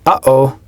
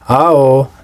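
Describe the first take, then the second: First: A glottal catch separates the two syllables. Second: The two syllables run together without a catch. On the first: The speaker calls it right. "the same sound we would make in English" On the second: The speaker calls it wrong. "sounds strange, because it is missing its okina"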